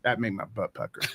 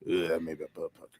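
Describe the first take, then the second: First: It is said in a natural voice. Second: It is said in a put-on voice.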